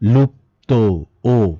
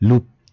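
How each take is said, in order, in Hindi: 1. शब्द ओ स्वर पर समाप्त होता है। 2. शब्द बिना स्वर वाले व्यंजन पर समाप्त होता है। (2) "লুপ্ত না"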